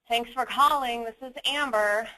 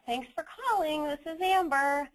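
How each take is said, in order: First: The voice sounds annoyed and unwilling. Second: The voice sounds forced, with strained happiness. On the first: Being on the call is an inconvenience. "I sound annoyed" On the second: Something is still wrong despite the effort. "I'm kind of trying to sound happy, but I still can tell"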